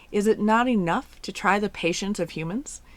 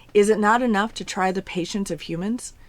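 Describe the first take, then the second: No difference in how they are said.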